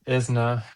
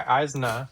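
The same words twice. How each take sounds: First: "Isna" with a short opening i; corrected name. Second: "Aizna" with an opening EYE sound; mispronounced name. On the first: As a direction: say "Isna" as IZ-nuh. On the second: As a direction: say "Aizna" as EYEZ-nuh. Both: Real, not acted. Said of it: "Well, I also pronounced".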